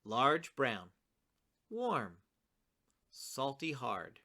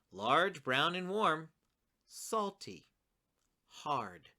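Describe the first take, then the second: First: Pair "Large, brown", leave "warm" alone between pauses, then pair "salty, hard"; "warm" on its own falling beat, "salty, hard" joined as one phrase; warm set apart. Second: One phrase for "Large, brown, and warm", separate falling beats for "salty" and "hard"; salty, hard set apart. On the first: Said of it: "from both poems. Listen to it again". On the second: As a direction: run "Large, brown, and warm" together, then "salty" and "hard" each alone after a pause. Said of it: "The first one goes". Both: Shown as a demonstration.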